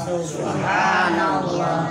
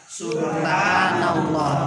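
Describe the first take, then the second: No difference in how they are said.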